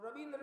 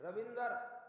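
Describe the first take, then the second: First: "रविंद्र" ending in a joined dra; half R. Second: "रविंदर" with a vowel before the final r; full R. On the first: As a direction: keep द and र together in "रविंद्र". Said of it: "वो रविंद्र नहीं बोलेंगे". ("रविंद्र" में आधा र, द्र जुड़ा हुआ) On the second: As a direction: end "रविंदर" in a clear -dar. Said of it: "आधे रा को पूरा करके बोलते हैं". ("रविंदर" में र पूरा बोलें) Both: Shown as a demonstration.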